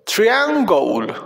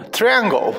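First: "triangle" stretched syllable by syllable; slow "triangle" right down for learners; drawn-out pronunciation model. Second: Said in the usual way. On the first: Shown as a demonstration. Teacher showing children how English "triangle" sounds, slowly drawn out. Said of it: "Así se pronuncia triángulo en inglés". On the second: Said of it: "sencillo de pronunciar en inglés".

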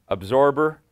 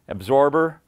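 No difference in how they are said.

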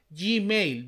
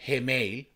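First: GMAIL said "yi-meil"; pronunciación inglesa. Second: GMAIL with the Spanish letter G, "he-meil"; pronunciación española. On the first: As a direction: say Gmail with the English letter G, "jee-mail". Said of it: "¿dónde está la Y y la I?". (Gmail a la inglesa, «yiméil») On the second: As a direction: say Gmail as "heh-mail". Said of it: "Entonces, ¿cómo es?". (Gmail a la española, «jeméil») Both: Shown as a demonstration.

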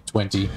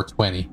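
First: Twenty with both Ts sounded; careful "twenty", T released; T pronounced. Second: Twenty with no second T; casual "twenty", second T left out; T dropped. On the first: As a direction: say "twenty" with a crisp second T. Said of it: "emphasizing and pronouncing T's". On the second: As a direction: say "twenty" lazily as "twenny". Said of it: "just say twenty". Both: Shown as a demonstration.

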